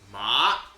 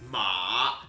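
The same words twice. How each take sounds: First: The pitch rises from low to high. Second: The pitch dips down and then rises. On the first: It means numbness. "but that's going up" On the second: It means horse. "Ma is down and up"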